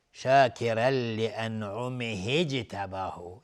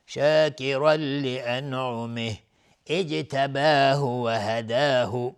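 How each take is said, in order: First: "لانعمه اجتباه" slow, joined as an'umihij-tabahu; connected form. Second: Slow chant, break after "لانعمه", fresh i on "اجتباه"; stop and restart. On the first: Teacher shows joining, "لانعمه اجتباه" slowly run together. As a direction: link "لانعمه" into "اجتباه" with no break. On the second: Teacher shows pausing, slow chant restarting on "اجتباه". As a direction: stop on "لانعمه" then start "اجتباه" as ijtabahu. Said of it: "اگر بخوایم از اجتباه خودش شروع". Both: Shown as a demonstration.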